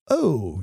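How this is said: It is said lightly, like a casual remark. A mild, everyday reaction. The speaker calls it wrong. "not properly expressed with an O, as in, oh, you don't say"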